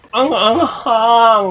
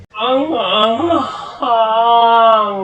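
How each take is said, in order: First: Slow, high gasp at the heat; drawn out with the tongue burning; mouth burning from spicy food. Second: Very slow, high cry at the heat; mouth burning from spicy food. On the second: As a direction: stretch it out as the heat hits. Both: Real, not acted. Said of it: "My God, ang anghang".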